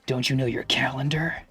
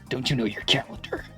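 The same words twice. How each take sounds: First: It is said in a put-on Dante voice. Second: It is said in a put-on Snake voice. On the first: "I'm Dante from Devil May Cry" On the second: "Maybe I'm Snake"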